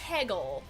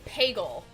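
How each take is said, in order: First: The first vowel is not an A sound. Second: The first vowel is an A sound. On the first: "I don't say peggle" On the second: "which is the having an A sound is a very northwestern thing"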